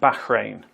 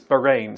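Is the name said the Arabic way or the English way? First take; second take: Arabic; English. First: It is said with an Arabic-style pronunciation. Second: It is said with a plain English pronunciation.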